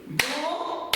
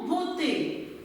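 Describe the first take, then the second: First: "Beauté" broken apart as beau - té; split into syllables. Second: Said in the usual way. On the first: Shown as a demonstration. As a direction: clap out "Beauté" in two spaced beats. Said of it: "Frappez le mot beauté". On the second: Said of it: "on va le segmenter ensemble".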